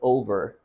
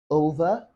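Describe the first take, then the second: First: The final R is pronounced. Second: The final R is silent.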